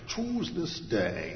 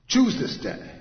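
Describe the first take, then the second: First: Put-on slow, hinted Scottish accent; Sean Connery. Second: Loud, high, sharp command. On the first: Preacher imagining the movie Joshua, slow mock Scottish accent. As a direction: draw it out in an amateur Scottish impression. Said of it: "that Scottish accent would be perfect". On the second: Acted. Joshua giving his people the word, loudly commanding. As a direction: order it with full authority. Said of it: "Just this commanding word".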